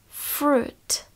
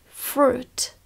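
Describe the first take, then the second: The two takes are said the same way.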